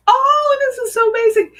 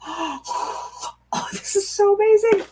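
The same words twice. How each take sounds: First: Much higher, louder amazed cry; thrilled. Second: Breathless oh, then higher amazed words; hushed gasp rising into wonder; awed. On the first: Reader seeing the baby card, loud high thrilled cry. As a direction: burst out in delight. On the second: Reader turning the baby card, awed gasp then higher praise. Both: Real, not acted. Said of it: "I got tears".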